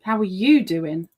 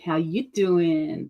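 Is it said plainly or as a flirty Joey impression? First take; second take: plain; Joey impression. First: It is asked in a plain, sincere voice. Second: It is a flirty impression of Joey.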